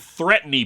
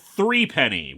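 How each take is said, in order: First: The first syllable is reduced to 'thruh'. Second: The first syllable is a full 'three'. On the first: This is how the British characters say it. "The pronunciation made me think they were saying threepenny bits" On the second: This is how Americans would say it. "We'd probably pronounce it three penny"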